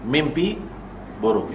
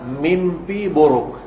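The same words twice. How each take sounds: First: Mimpi buruk repeated low and much softer; quiet repeat for weight; soft echo. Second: Slow, deliberate mimpi buruk with a falling buruk; heavy and slow; slow emphasis. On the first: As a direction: let the echo of mimpi buruk drop away. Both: Shown as a demonstration.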